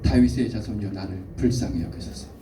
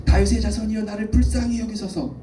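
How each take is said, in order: First: Said in the usual way. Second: High, impassioned crying out; wailing cry. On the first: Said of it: "아까보다 더 큰 목소리로". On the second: Acted. Pastor acting blind Bartimaeus pleading to Jesus, wailing cry. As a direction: cry out the plea at a much higher pitch. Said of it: "울부짖는 소리를 질렀을 것 같아요".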